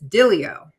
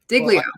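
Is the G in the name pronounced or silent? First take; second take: silent; pronounced. First: The name is said with no G sound. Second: The name begins with a hard 'dig' sound. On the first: This is the original pronunciation of the name. "I guess the real pronunciation is Dilio" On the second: This is the everyday way the name is said. "It's dig, like dig, like dig in"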